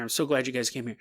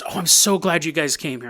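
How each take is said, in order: First: Dropped to a much softer echo; the guest's words echoed back quietly. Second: Said in the usual way. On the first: Acted. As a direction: repeat it again under your breath.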